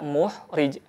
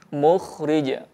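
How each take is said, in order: First: The second consonant is a plain breathy h. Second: The second consonant is a raspy kh sound. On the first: The speaker calls it wrong. "tidak muhrij" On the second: The speaker calls it right. "bergetar lembut"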